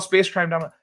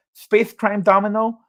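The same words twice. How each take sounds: First: Said in the usual way. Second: Slow, lisped attempt at a title, higher; Mike Tyson. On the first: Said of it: "Mike Tyson impression". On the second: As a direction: sound it out with a Tyson lisp. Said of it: "I can almost say that one".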